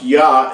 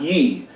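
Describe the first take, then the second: First: The syllable is said with an open 'ah' vowel. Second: The syllable is said with an 'eh' vowel. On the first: The speaker calls it right. "his name is pronounced Yah" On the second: The speaker calls it wrong. "and not Ye"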